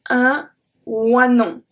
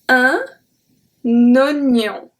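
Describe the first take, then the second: First: The first vowel is said as 'wa'. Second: The first vowel is said as plain 'o'. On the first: The speaker calls it wrong. "you will be tempted to read that" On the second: The speaker calls it right. "we don't pronounce the first E"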